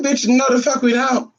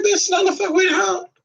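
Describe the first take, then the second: First: Higher, firmer retort with stress on no; retold sassy refusal. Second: Much higher, mocking retort; retold sassy refusal. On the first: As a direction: lean on no. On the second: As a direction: toss off the refusal with sass. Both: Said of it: "I said".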